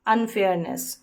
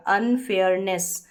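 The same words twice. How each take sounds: First: Said in the usual way. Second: अनफेयरनेस said slowly as अन-फेयर-नेस; slow syllable demo. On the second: Shown as a demonstration. Teacher showing students the parts of अनफेयरनेस, slowly. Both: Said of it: "करके फेयर हो गया".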